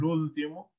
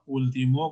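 First: The stress is on the first syllable. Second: The stress is on the last syllable. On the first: "acá como palabra esdrújula" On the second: "como palabra aguda"

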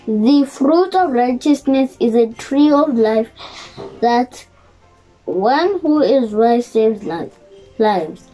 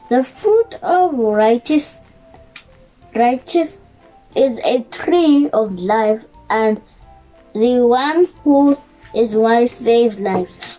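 First: It is read at normal speed. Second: It is read slowly.

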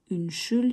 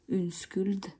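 First: The middle consonant sounds like sh. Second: The middle consonant sounds like sk. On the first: The speaker calls it right. "вот это «ш»" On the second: The speaker calls it wrong. "если вы скажете «унскульд»... вас могут не понять"

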